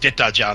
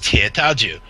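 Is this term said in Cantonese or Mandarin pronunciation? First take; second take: Cantonese; Mandarin. First: It is said with Cantonese pronunciation. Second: It is said with Mandarin pronunciation. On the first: "the Cantonese word is" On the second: "The Mandarin is"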